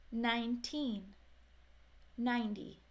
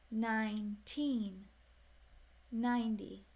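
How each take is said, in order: Both takes have the same delivery.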